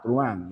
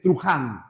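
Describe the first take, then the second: First: The middle h is silent. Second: The middle h is said like a harsh j. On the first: The speaker calls it right. "se pronuncia Truán" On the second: The speaker calls it wrong. "dicen Truján. No, la H no es una J"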